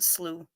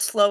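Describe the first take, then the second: First: The vowel rhymes with flu. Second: The vowel rhymes with go. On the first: "I pronounced it slew as in flu" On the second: "not slow as in grow"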